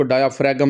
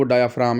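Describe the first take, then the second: First: डायाफ्रागम said as dia-fra-gam, with an extra g sound; wrong pronunciation. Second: डायाफ्राम said as dia-fram, no g sound; correct pronunciation. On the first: (डायाफ्रागम गलत उच्चारण, ग के साथ) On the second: (डायाफ्राम सही उच्चारण, बिना ग के) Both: Shown as a demonstration. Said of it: "इसको डायाफ्रागम नहीं पढ़ना".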